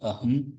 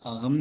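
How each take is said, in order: First: The middle consonant is a breathy throat h. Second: The middle consonant is a hard k sound. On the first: The speaker calls it right. "அஹம் அ தொண்டையிலேருந்து வரணும்" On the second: The speaker calls it wrong. "அகம் இல்ல"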